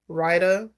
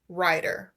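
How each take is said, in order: First: It is said with a country accent. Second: It is said carefully and clearly. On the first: The speaker calls it wrong. "I have an accent and it's a little country and it might come out rider" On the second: The speaker calls it right. "I have to try and say that as clearly as possible"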